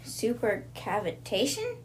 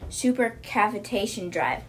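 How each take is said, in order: First: Supercavitation? slow, rising, drawn out in disbelief; "Supercavitation?" said slowly with a rising, baffled tune; puzzled question. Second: Said in the usual way. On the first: Retold or imitated. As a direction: ask "Supercavitation?" slowly with a long rise. Anna questions the strange word.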